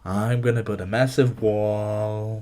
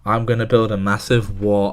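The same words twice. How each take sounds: First: It is said in a put-on imitated voice. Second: It is said in the speaker's ordinary voice.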